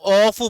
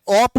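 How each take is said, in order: First: The syllable ends with an 'f' sound. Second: The syllable ends with a 'p' sound. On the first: The speaker calls it right. "ऑफ बोलना है" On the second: The speaker calls it wrong. "ऑप मत बोलना है"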